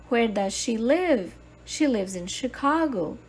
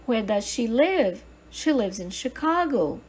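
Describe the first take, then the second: No difference in how they are said.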